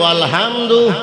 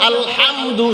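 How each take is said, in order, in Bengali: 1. h টা হালকা, সাধারণ একটা শ্বাস। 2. h টা গলা থেকে জোরে চাপ দিয়ে বলা হয়। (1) "এখানে যদি তুমি বলো" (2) "হা চাপ দিয়া বলো"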